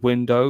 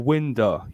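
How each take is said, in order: First: It is said with standard, careful pronunciation. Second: It is said with lazy Cockney pronunciation. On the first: "instead of saying window" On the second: "we say, "Oh, open the window." ... it's lazy pronunciation"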